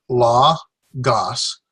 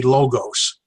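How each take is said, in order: First: "Logos" slow with open vowels, LAH... GAHS; Erasmian pronunciation. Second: "Logos" with long o's, LOH-gohs; modern pronunciation. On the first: Teacher returning to own system, "Logos" slowly as LAH-gahs. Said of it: "I learned the Erasmus system". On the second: Teacher offering the modern option, "Logos" as LOH-gohs. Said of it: "classical or the modern". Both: Shown as a demonstration.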